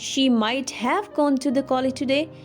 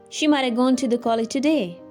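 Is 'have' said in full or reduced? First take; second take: full; reduced. First: The word 'have' is pronounced in full. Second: The word 'have' is reduced to a weak 'a'. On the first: The speaker calls it wrong. "Instead of saying" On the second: The speaker calls it right. "you may use a contraction here"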